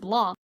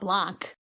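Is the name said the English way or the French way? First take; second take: French; English. First: It is said with a French pronunciation. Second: It is said with an English pronunciation. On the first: The speaker calls it right. "it should be pronounced Blanc" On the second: The speaker calls it wrong. "instead it's Benoit Blanc"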